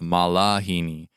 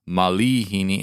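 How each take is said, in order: First: The second vowel is an 'a' sound. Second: The second vowel is an 'i' sound. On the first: The speaker calls it wrong. "instead of malahini" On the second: The speaker calls it right. "you actually need to pronounce malihini"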